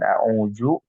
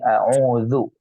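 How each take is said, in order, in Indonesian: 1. Konsonan tengah terdengar seperti z. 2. Konsonan tengah itu bunyi dh yang lembut. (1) "bukan a'udzu" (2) "tapi a'udzu, agak ini sedikit a'udzu"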